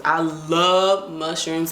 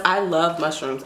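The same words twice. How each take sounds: First: Slow, each word stretched, love leaned on; drawn-out love. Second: Said in the usual way. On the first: Shown as a demonstration. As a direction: savour the words I love mushrooms slowly. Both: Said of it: "a little fact about [name]".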